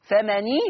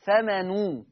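First: فمني with a clear i vowel on the noon; Hafs kasra on noon. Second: فمنو slow, ending in a rounded u; Warsh damma on noon. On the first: Teacher voicing the Hafs reading with kasra. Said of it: "يا حفص هتقراها بالكسر". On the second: Teacher voicing the Warsh reading with damma. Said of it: "أما أنت يا ورش فبالضم". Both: Shown as a demonstration.

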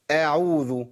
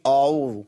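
First: أعوذ opening on a thin front a; clear, light-started أعوذ; correct light hamza. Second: أعوذ opening on a thick back a; heavy, mistaken start on أعوذ; wrong heavy hamza. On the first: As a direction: say أعوذ slowly with a light first vowel. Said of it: "قول أعوذ". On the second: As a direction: darken the first vowel of أعوذ. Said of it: "ما تقولش أعوذ". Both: Shown as a demonstration.

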